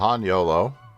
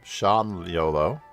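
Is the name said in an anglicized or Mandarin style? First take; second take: anglicized; Mandarin. First: The name is said with an anglicized pronunciation. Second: The name is said with a Mandarin pronunciation.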